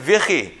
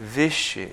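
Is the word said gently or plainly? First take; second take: plainly; gently. First: The word is said in a plain, ordinary voice. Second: The word is said very gently and softly. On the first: "I would pronounce it Vichy" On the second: "Very like gentle, very subtle"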